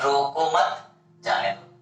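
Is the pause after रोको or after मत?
after मत. The pause comes after मत.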